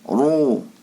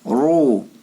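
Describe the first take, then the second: The two takes are said the same way.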